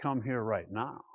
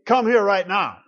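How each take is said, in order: First: Soft inviting to wife. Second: Louder, sharper parent command; stern command to kids. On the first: Husband calling his wife, soft and inviting. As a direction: lower and softer, inviting. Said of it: "I can tell my wife". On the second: Father calling his kids, stern loud command. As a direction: call the kids in firmly. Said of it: "I can tell my kids". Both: Shown as a demonstration.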